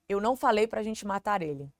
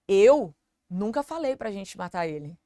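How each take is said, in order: First: It is said evenly with no word stressed. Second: The first word is stressed. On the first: "falei num tom comum, eu não dei ênfase em nenhuma das palavras" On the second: "quer dizer, eu não falei, mas talvez você"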